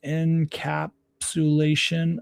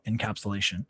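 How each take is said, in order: First: Encapsulation sounded out slowly, syllable by syllable; careful pronunciation. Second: Said in the usual way. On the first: Real, not acted. Reading an article on camera, slowly sounding out encapsulation. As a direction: ease through encapsulation slowly, unsure of the word. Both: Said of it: "I don't even know how to say it".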